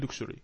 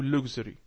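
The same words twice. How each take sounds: First: Luxury with a "ksh" in the middle, "LUK-shree"; first pronunciation variant. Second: Luxury with a voiced "gz", "LUG-zree"; alternative pronunciation. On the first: Teacher reading the text to student, luxury said "LUK-shree". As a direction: say luxury with an unvoiced k-sh sound. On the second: Teacher offering student the other option, luxury said "LUG-zree". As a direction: say luxury with a hard g and buzzing z. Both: Shown as a demonstration.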